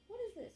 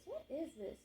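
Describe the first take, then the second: First: Startled and much higher, what is this; sudden surprise at a strange noise; surprised. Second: Said in the usual way. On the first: Real, not acted. Reader hears an odd sound, startled high question.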